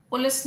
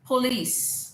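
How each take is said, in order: First: पुलिस said POL-iss, short final i; mispronunciation. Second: पुलिस as puh-LEECE, long final EE; correct pronunciation. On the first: Teacher shows the class the mistake, पुलिस as POL-iss. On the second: Teacher corrects the class, पुलिस as puh-LEECE. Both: Shown as a demonstration. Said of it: "पुलिस नहीं".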